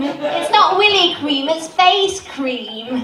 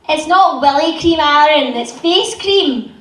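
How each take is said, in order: First: It is said in an RP accent. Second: It is said in a West Country accent.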